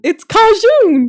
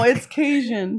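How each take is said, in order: First: Cajun as KAH-zhoon, slow and higher. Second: Cajun as KAY-jun, slow and laughing. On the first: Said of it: "That's how they say it down in South Alabama". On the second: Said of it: "No, it's Cajun". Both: Shown as a demonstration.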